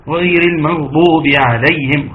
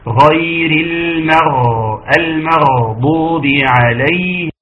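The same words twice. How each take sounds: First: Recited المغضوب with a short غ, no flow; wrong ghayn. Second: Slow recited المغضوب with a long gargled غ; flowing soft ghayn. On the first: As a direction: pass quickly over the غ in المغضوب. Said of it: "خطأ، ما ينفعش". (ترتيل خاطئ دون رخاوة الغين في «المغضوب») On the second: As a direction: let the sound run on through the غ of المغضوب. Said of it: "فيها رخاوة". (رخاوة الغين وجريان الصوت في «المغضوب») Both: Shown as a demonstration.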